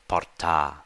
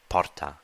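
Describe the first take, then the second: First: The final vowel is long. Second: The final vowel is short. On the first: It is the ablative singular form. "the ablative singular ending is a long a" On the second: It is the nominative or vocative singular form. "the nominative and vocative singular ending is a short a"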